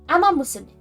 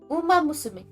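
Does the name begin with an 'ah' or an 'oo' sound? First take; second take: ah; oo. First: The first word begins with an 'ah' vowel. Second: The first word begins with an 'oo' vowel. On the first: The speaker calls it wrong. "I pronounced it wrong" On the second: The speaker calls it right. "it's Uma"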